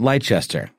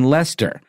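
First: The name is pronounced as it is spelled. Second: The name is not pronounced as it is spelled. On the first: The speaker calls it wrong. "like you think it would be pronounced when you look at it on paper" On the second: The speaker calls it right. "even though I said it right"

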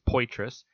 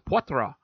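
First: The name is read as spelled, anglicized. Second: The name is said with French pronunciation. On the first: "on paper it looks like Poitras" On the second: "I know the last name as Poitras, very French"

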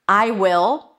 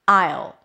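First: Will is said as a full separate word. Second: Will is reduced to a schwa and dark L.

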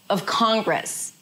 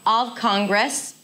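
First: 'Of' is short and reduced before Congress. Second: 'Of' is full and as long as Con. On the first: The speaker calls it right. "That is also one syllable because of is reduced" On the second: The speaker calls it wrong. "It's not of Congress"

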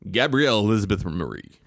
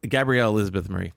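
First: The name is said in a grand, regal way. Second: The name is said in a plain, ordinary way.

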